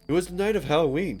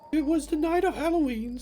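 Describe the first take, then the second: First: It is said in an ordinary natural voice. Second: It is said in a put-on character voice.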